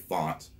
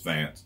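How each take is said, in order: First: The vowel is an open 'ah' sound. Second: The vowel is like the 'a' in 'cat'. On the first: The speaker calls it wrong. "unless they try using accents, say font" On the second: The speaker calls it right. "which is is Fant"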